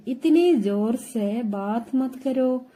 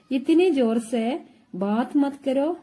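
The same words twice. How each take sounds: First: Slow, careful Hindi phrase, each word laid out; slow teaching model. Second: Said in the usual way. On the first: Shown as a demonstration. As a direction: spell it out slowly for the learner. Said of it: "teacher models Hindi phrase slowly". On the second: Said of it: "teacher repeats phrase at normal pace".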